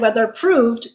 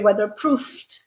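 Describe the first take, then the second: First: The middle consonant is a voiced v sound. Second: The middle consonant is a voiceless f sound. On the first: The speaker calls it wrong. "You don't say" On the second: The speaker calls it right. "you say weatherproofed with a f sound"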